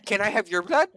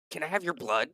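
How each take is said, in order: First: High, loud, over-keen question; eager request. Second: Higher, mildly eager scientist voice; lightly voiced eccentric asking a favour; curious request. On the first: Acted. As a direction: pounce on it in a high, excited voice. Scientist eagerly asks the next visitor. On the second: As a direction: ask it with keen, odd curiosity. Scientist eagerly asks green visitor.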